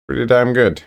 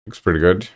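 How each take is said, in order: First: Higher, punchy pretty damn good; emphatic praise. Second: Said in the usual way. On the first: Real, not acted. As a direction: sell it like a real compliment. Upgraded praise after plain take.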